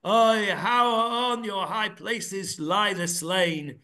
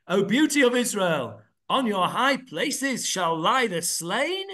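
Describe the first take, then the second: First: A lamenting cry, slow; slow exclamation of woe. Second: Questioning tune, rising at the end; read as a question. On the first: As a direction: mourn it as a statement. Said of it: "The exclamation mark way of saying it is". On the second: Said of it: "Question mark". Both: Shown as a demonstration.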